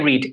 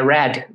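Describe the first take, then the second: First: The vowel is long, as in 'seed'. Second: The vowel is short, as in 'bed'. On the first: The speaker calls it wrong. "Não é I read" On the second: The speaker calls it right. "é read, desculpe"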